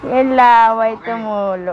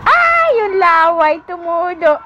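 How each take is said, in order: First: Slow, stretched words at usual pitch. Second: Playful exclamation. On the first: Mother on her baby's drool, slow drawn-out talk. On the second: Mother to her drooling baby, high playful exclamation. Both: Real, not acted.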